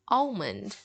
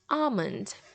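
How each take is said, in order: First: The L sound is pronounced in the word. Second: The L sound is left out of the word. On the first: This is how many people in parts of the US say it. "in many parts of the U S, they will pronounce the L in it" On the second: This is how it is said in many other places. "without the letter L"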